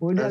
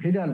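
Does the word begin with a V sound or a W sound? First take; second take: W sound; V sound. First: The word begins with a W sound. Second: The word begins with a V sound. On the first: The speaker calls it wrong. "এটা উইডাল বলা যাবে না" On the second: The speaker calls it right. "এখানে হবে ভিডাল test"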